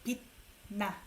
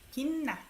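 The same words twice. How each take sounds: First: The first syllable ends in a T sound. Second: The first syllable ends in an N sound. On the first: The speaker calls it wrong. "It's hard to say 빛나" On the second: The speaker calls it right. "This C H sound becomes N"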